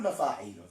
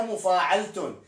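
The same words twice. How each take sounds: First: مفاعيل said short as mafaʕil, no ending; shortened form. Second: مفاعلة said in full as mufaʕeltun, ending in -tun; proper pronunciation. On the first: Teacher shows students the short everyday form, mafaʕil. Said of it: "بس إحنا نختصر وش نقول". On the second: Teacher gives students the correct full form, mufaʕeltun. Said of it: "هذه النطق السليم إليها". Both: Shown as a demonstration.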